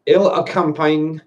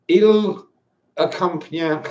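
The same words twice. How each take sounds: First: Slow French read with English pronunciation; English-accented French. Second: Halting, higher-pitched attempt at French; clumsy French accent, feeling out each word; terrible French accent. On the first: Wine drinker retrying the French label, English pronunciation. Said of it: "I'll pronounce it with English". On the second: Wine drinker reading a French label aloud, terrible French accent. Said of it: "my French accent's terrible". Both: Shown as a demonstration.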